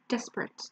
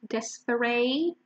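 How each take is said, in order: First: The last syllable sounds like 'et'. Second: The last syllable sounds like 'ate'. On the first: The speaker calls it right. "But your pronunciation is et" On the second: The speaker calls it wrong. "some people pronounce it ate"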